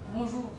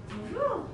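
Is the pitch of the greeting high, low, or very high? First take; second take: low; high. First: The greeting is said with a low, flat pitch. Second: The greeting is said with a slightly raised pitch. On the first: The speaker sounds indifferent. "âm giọng nó hơi trầm xuống không?" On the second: The speaker sounds cheerful. "muốn cho một cái trạng thái vui vẻ ... hơi cao cao"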